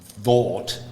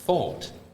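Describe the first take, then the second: First: The first sound is a voiced th, as in 'the'. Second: The first sound is a voiceless th. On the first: The speaker calls it wrong. "You don't say it the same as in the. You don't say thought" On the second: The speaker calls it right. "you say thought"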